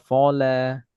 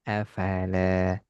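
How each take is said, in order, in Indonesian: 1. Vokal setelah f terdengar seperti o. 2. Vokal setelah f terdengar seperti a. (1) "jangan sampai afala kita baca afola" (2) "Tidak seperti bunyi huruf O"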